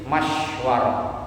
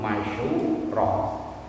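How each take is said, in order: First: The sh has no vowel; w carries an a. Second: The sh carries a u; w has no vowel. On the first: "bisukun shin, dengan sukunnya huruf shin, wa fathil wawi, dan fathahnya huruf wawu" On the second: "bi dhammi syini, atau dengan dhammanya huruf shin wa sukunil wawi"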